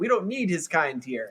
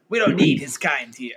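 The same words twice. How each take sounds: First: It is said in the speaker's ordinary voice. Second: It is said in a put-on gruff character voice. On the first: "You're not doing his voice" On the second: "I'm doing J. Jonah Jameson"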